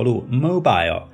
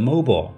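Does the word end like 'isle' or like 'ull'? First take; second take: isle; ull. First: The ending sounds like 'isle'. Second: The ending sounds like 'ull'.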